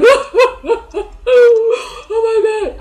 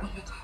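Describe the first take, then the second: First: Loud, high-pitched wailing sobs; hammed-up bawling, far louder and higher; full-on crying. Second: Tiny, soft whimper of dismay; barely-there upset, much softer; mild crying, dismissed. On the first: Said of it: "I'm saying crying". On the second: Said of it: "When I say crying, guys, I'm not saying like". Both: Shown as a demonstration.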